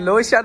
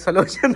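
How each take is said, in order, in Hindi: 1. शब्द की शुरुआत L ध्वनि से होती है। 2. शब्द की शुरुआत में एक अतिरिक्त S ध्वनि जुड़ी होती है। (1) "लोशन होती है" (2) "सलोशन नहीं होती"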